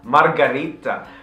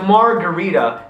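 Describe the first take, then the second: First: It is said with an Italian accent. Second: It is said with an American accent.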